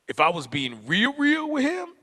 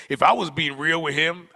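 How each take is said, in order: First: Second real leaps up high; stress on real. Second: Said in the usual way. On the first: Real, not acted. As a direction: double real, lifting the pitch sharply on the repeat. Repeat doubles and heightens real.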